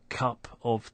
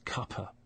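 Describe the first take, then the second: First: The word 'of' is said fully with its v. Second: The 'of' is reduced to a weak uh sound. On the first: "instead of cup of tea" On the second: "It's been weakened to uh"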